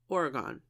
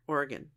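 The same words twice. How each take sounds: First: Oregon said OR-uh-GONE; Oregon ending like "gone"; full "gone" ending. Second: Oregon said OR-gun; Oregon with a weak last syllable; reduced ending. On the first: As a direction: give Oregon an open last syllable. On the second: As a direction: swallow the end of Oregon to "gun". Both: Shown as a demonstration. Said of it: "Graceland, Oregon".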